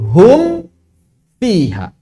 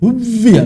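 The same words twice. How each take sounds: First: The mim is pronounced clearly before the f. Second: The mim is merged into the following f. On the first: The speaker calls it right. "Tetap harus dua kali" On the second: The speaker calls it wrong. "enggak mungkin"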